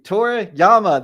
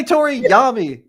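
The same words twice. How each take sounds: First: "Toriyama" slow and loud, ending YAH-mah; intended pronunciation. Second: "Toriyami" high and loud, ending YAH-mee; wrong pronunciation. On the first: Host insisting on his version, slow "Toriyama" ending yah-mah. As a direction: spell out "Toriyama" by ear, mah at the end. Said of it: "That's what I've been saying". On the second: Host denying it to co-host, "Toriyami" ending yah-mee. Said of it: "I did not say Toriyami". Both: Shown as a demonstration.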